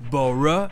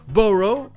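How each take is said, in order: First: The ending is a weak 'uh' vowel. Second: The ending is a full 'oh' vowel. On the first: This is the British pronunciation. "officiellement au Royaume-Uni ça se prononce E" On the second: This is the American pronunciation. "j'ai prononcé les deux O U G H comme la première prononciation. Officiellement, c'est la prononciation américaine, O"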